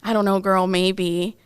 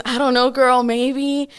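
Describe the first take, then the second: First: Said in the usual way. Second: Higher, louder, sassy shrug of a reply; sassy turn. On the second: Retold or imitated. Friend suddenly drops the tears, sassy and higher. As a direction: flip from tears to careless sass. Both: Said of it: "he turned into another person".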